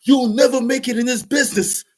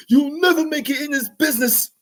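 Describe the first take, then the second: First: High, loud mock scolding; frustrated put-down. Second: Even higher, strained mock scolding, pushed further; repeated put-down, higher. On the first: Producer scolding the rapper, high mock scolding. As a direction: jeer it like a fed-up producer. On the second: Producer repeating his put-down, higher and harder. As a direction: hammer it home like a fed-up mentor. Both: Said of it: "He was like / he was getting frustrated".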